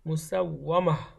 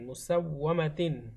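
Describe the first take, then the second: First: The word ends without the 'tin' sound. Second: The word ends with a full 'tin' sound. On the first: The reader stops at this word. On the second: The reading continues without stopping.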